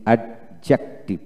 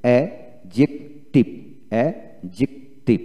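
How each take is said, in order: First: অ্যাডজেক্টিভ with an audible d, "ad-jek-tiv"; wrong, d sounded. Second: অ্যাডজেক্টিভ slowly as "a... jik... tiv"; correct, silent d. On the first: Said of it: "আমরা এতদিন শিখে আসছি". (ডি সহ অ্যাড-জেক-টিভ উচ্চারণ) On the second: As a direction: say অ্যাডজেক্টিভ in spaced syllables without the d. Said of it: "না, এখানে উচ্চারণটা হবে". (ডি ছাড়া ভেঙে ভেঙে অ্যাডজেক্টিভ) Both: Shown as a demonstration.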